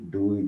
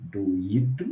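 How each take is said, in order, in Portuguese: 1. As vogais formam uma sílaba com glide, com acento no o. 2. As vogais formam duas sílabas, com acento no i.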